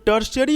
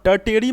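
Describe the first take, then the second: First: The middle consonant is an 'sh' sound. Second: The middle consonant is a plain 't' sound. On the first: The speaker calls it right. "ये जो टी है इसे हम लोग एस के तरीके से यहाँ पे प्रोनाउंस करते हैं" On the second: The speaker calls it wrong. "इसे आप टर्टेरी मत कहिएगा"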